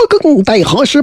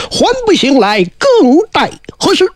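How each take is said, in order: First: Said in the usual way. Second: Higher, sung-out Daoist summons; summoning call. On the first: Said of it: "说". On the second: Acted. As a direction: chant it out to wake the dead. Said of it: "叫了一声".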